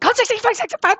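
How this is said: It is said in a frantic panic.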